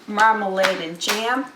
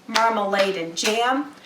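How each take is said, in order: Both takes have the same delivery.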